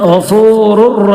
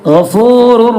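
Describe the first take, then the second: No difference in how they are said.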